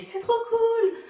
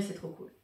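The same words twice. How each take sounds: First: High, loud, drawn-out squeal of approval; gushing fans. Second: Said in the usual way. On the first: Retold or imitated. Imitating people reading her t-shirt, gushing. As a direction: gush it high and loud, stretching the words. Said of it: "Ou encore ils font".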